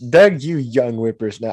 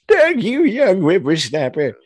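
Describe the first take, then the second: First: It is read in the speaker's normal voice. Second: It is read in an old man's voice.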